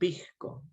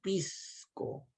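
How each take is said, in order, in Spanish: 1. La s antes de c suena como una j aspirada. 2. La s antes de c es una s silbante clara. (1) "la sustitución de la J por la S" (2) "No nos tomamos un pisco"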